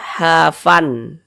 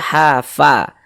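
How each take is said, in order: First: The word ends with an n sound. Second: The word ends with a long vowel. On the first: The speaker calls it wrong. "Jangan dibaca hafan" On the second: The speaker calls it right. "tapi dibaca hafa"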